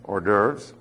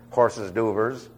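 First: The first word sounds like or. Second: The first word sounds like horses. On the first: The speaker calls it right. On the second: The speaker calls it wrong.

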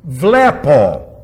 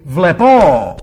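First: The stress is on the first syllable. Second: The stress is on the last syllable. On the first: The speaker calls it right. "Accent over the epsilon" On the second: The speaker calls it wrong. "if it was at the omicron, ... the omega, it would be vlepo"

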